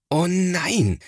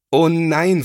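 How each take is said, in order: First: High, exasperated "Oh nein" falling on "nein"; a brother fed up with the mess; scolding exclamation. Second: High, loud, shocked "Oh nein" with stretched "oh"; dismayed cry. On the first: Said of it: "schimpft Thomas". (schimpfendes "Oh nein", am Ende fallend) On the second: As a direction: wail "Oh nein" as a child seeing his toys ruined. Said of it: "ruft da sein Bruder Thomas". (entsetzter, lauter Ausruf "Oh nein") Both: A narrator's reading.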